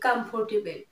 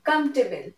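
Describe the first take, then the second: First: The middle 'or' syllable is pronounced fully. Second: The middle 'or' syllable is dropped. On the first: The speaker calls it wrong. "আমরা এটাই বলি" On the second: The speaker calls it right. "it will be comfortable. Or, or এর এখানে উচ্চারণটা হবে না"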